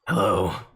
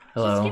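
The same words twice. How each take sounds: First: It is said in a gruff, Batman-like voice. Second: It is said in a plain, normal voice.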